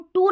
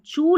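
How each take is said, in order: First: The syllable starts with a plain 't' sound. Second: The syllable starts with a 'ch' sound. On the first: The speaker calls it wrong. "टू नहीं पढ़ना" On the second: The speaker calls it right. "चू पढ़ना है"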